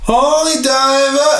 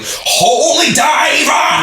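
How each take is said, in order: First: The sounds are mumbled and run together loosely. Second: Every sound is articulated crisply and distinctly. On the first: The speaker calls it wrong. "if you don't do that" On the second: The speaker calls it right. "he enunciates every word so much"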